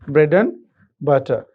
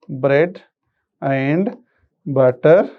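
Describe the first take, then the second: First: The word 'and' is reduced to 'n'. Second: The word 'and' is said in full.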